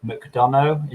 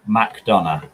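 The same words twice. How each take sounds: First: McDonough as muk-DON-oh, pitched higher; careful guess at McDonough, last syllable OH; tentative pronunciation. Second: McDonough as mack-DON-uh; McDonough, slower, ending in UH not OH; corrected pronunciation. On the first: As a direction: try out McDonough with an "oh" ending. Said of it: "Is that how you pronounce it". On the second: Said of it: "kind of pronounced like that". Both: Shown as a demonstration.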